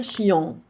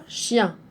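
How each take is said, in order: First: Chion read with a nasal "on" ending; chion, wrongly ending on "on". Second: Chien ending in the nasal "in" sound; correct reading. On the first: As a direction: mispronounce chion as "chi-on". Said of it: "on va pas dire chion". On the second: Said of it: "Ça devient chien". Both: Shown as a demonstration.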